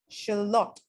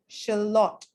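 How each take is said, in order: Both takes have the same delivery.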